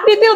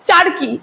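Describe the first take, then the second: First: The k sound comes before the r sound. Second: The r sound comes before the k sound.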